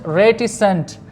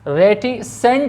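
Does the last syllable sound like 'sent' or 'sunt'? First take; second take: sunt; sent. First: The last syllable has a weak 'u' vowel. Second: The last syllable has a full 'e' vowel. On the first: The speaker calls it right. "संट" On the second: The speaker calls it wrong. "रेटिसेंट नहीं है"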